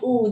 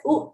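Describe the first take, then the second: First: "oo" lengthened, like in moon; long oo sound. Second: "U" as a quick oo, like in book; short oo sound. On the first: Teacher saying double O both ways, "oo" long. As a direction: stretch "oo" as a long vowel. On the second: Teacher saying double O both ways, "U" short. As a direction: say "U" briefly as a short oo. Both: Shown as a demonstration. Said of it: "the short vowel and the long U sound".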